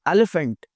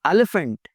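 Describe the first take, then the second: No difference in how they are said.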